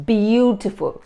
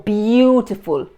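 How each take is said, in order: The two takes are said the same way.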